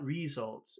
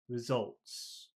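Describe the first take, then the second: First: The stress is on the first syllable. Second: The stress is on the second syllable. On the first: The speaker calls it wrong. "it's not on the first syllable. It's not results" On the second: The speaker calls it right. "It's on the second syllable"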